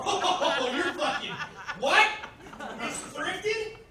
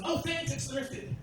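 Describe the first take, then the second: First: Loud, high-pitched comic outrage; shocked disbelief. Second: Slightly high, drawn-out thanks; casually pleased, imitating the fiancée; lightly voiced fiancée. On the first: Acted. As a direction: repeat it as an appalled question. Shocked reaction to her answer. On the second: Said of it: "she just goes".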